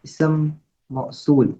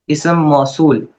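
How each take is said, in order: First: इसम मौसूल said very slowly and softly, drawn out; announced term. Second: Said in the usual way. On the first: Shown as a demonstration. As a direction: give इसम मौसूल a slow, deliberate announcement. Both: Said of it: "fifth जो है वो है".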